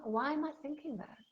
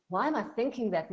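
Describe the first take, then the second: First: Calmly curious, with a lifted high question. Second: Louder and fast, self-scolding; judgmental. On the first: Coach shows curious self-questioning, calm and open. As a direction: ask it with gentle curiosity. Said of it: "listen to them with curiosity". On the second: Coach shows harsh self-judgment, fast and louder. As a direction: snap at yourself for the thought. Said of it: "not with judgment". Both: Shown as a demonstration.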